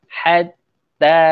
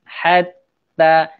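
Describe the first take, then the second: Both takes have the same delivery.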